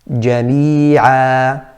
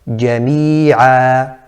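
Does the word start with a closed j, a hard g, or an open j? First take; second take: closed j; closed j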